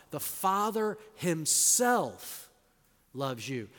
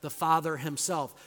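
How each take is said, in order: First: Slow, weighty stress on "The Father himself"; "The Father himself" drawn out, stress on Father; emphatic Father himself. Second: Said in the usual way. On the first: Shown as a demonstration. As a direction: land each word of "The Father himself" slowly. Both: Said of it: "this is really emphatic in the Greek".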